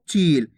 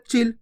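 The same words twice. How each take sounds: First: चील with the ई stretched long. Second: चिल with a quick, clipped इ; short i. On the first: Teacher showing the long ई in चील. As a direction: draw out the ई in चील. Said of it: "दो खींच के पढ़ रहे चील". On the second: Teacher contrasting the short इ in चिल. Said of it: "जल्दी से उच्चारण हो रहा है". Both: Shown as a demonstration.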